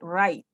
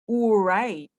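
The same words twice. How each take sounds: First: The word begins with an R sound. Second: The word begins with a W sound. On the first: The speaker calls it right. "You say right" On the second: The speaker calls it wrong. "you don't mention right"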